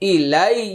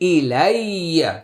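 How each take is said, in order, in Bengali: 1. শব্দটি চূড়ান্ত স্বরধ্বনি ছাড়াই সংক্ষিপ্তভাবে থেমে যায়। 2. শব্দটি একটি পূর্ণ চূড়ান্ত স্বরধ্বনি দিয়ে শেষ হয়।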